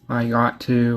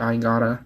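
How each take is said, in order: First: The words are said fully and separately. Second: The words are linked and reduced together. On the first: "instead of saying I got to" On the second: "we say I gotta"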